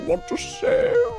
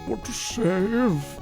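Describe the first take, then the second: First: It is said without the old British man voice. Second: It is said in a really old British man voice.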